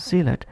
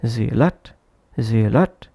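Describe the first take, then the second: First: Said in the usual way. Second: "zealot" with the weight on "lot", rising; stress on second syllable. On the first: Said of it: "Instead of pronouncing as zealot". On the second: Shown as a demonstration. Teacher showing learners an unnatural pronunciation, "zealot" stressed on its second syllable. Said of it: "sounds unnatural".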